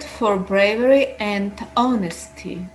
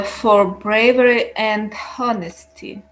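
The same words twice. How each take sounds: First: "honesty" begun on the vowel, no breath before it; silent H in honesty. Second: "honesty" with an audible breathed H; H pronounced in honesty. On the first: Shown as a demonstration. Student rereading after correction, "honesty" with silent H. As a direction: read "honesty" with the H dropped. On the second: Real, not acted. Student reading aloud to teacher, "honesty" said with the H sounded. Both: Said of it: "do not try to pronounce the H".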